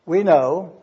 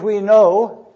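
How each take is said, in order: First: Said in the usual way. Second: "We know" said louder, as a strong opening quote; emphatic quote. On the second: Shown as a demonstration. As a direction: land "We know" firmly and a bit louder. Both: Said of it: "perfect tense verb".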